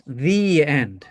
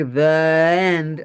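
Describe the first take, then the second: First: The said as "thee" before end. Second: The said as "thuh" before end; the with schwa. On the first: Teacher modelling the better form, The said as "thee". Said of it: "better to have a difference". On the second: Teacher showing the form to avoid, the said as "thuh". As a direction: say the as a weak "thuh". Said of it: "you can't say the end". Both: Shown as a demonstration.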